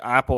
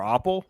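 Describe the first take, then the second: First: Apple with a short "a" as in cat; apple, usual vowel. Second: Apple said as OP-ul; broad "ah" at the start of apple. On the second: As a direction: say apple with the "ah" of father. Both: Shown as a demonstration. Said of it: "it's like apple or apple".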